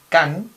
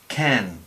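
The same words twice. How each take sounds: First: The k has no puff of air after it. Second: The k has a puff of air after it. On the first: The speaker calls it wrong. "no es can" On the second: The speaker calls it right. "sino can"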